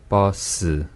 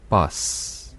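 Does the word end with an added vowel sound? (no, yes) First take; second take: yes; no. First: The word ends with an added vowel after s. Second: The word ends on the s with no vowel. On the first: The speaker calls it wrong. "으 몸을 한번 넣어볼게요" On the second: The speaker calls it right. "으 몸을 제가 빼버릴게요"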